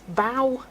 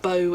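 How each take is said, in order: First: The vowel sounds like the one in 'row'. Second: The vowel sounds like the one in 'low'. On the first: The speaker calls it right. "bow as in row" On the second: The speaker calls it wrong. "not bow as in low"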